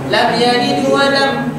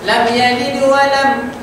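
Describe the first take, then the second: Both takes have the same delivery.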